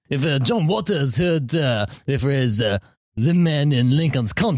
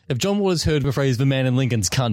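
First: It is said in a put-on French accent. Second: It is said in his own plain accent.

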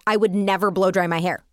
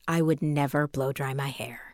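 First: It is said in an excited, energetic voice. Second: It is said in a calm, quieter voice.

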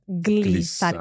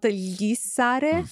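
First: The gl is a hard g plus l. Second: The gl is a soft, palatal sound. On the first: The speaker calls it right. "with a hard gl sound" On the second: The speaker calls it wrong. "So it's not glissare"

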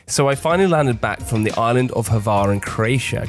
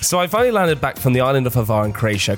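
First: It is said more slowly. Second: It is said at a normal pace.

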